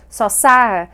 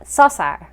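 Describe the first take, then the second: First: "sosar" with a loud, falling "sar"; second syllable accented. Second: "sosar" with "so" stressed and "sar" falling away; wrong first-syllable stress. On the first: Teacher modelling the right accent, stress on second syllable. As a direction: hit "sar" in "sosar" harder than "so". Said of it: "has had the second syllable accented". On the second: Teacher showing what not to say, first-syllable stress. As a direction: punch "so" in "sosar", drop "sar". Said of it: "not sosar". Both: Shown as a demonstration.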